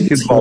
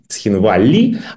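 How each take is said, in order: First: The name ends on the consonant 'l'. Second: The name ends with a final 'ee' vowel. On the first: The speaker takes the Russian-side position. "наш этот манер" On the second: The speaker takes a pro-Western, pro-Georgian position. "прозападная, прогрузинская"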